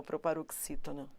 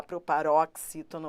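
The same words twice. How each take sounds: First: "proparoxítona" with a closed O before the x; closed O pronunciation. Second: "proparoxítona" with an open ó in "rox"; open O pronunciation. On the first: Teacher allowing either pronunciation, here the closed O. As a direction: keep the "rox" vowel of "proparoxítona" closed. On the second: Teacher allowing either pronunciation, here the open O. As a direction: say "proparóxítona", opening the O before the x. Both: Shown as a demonstration. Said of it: "tanto faz você falar".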